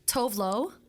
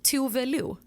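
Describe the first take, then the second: First: The name is said with an English pronunciation. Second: The name is said with a Swedish pronunciation. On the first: The speaker calls it wrong. "I'm gonna say it in English first" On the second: The speaker calls it right. "You don't say it like that"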